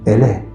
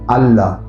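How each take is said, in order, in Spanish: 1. Las vocales se pronuncian como sonidos 'e'. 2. Las vocales se pronuncian como sonidos 'a' abiertos. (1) "En árabe, andalusí, la A se pronunciaba como si fuera una E" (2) "no digan Allah"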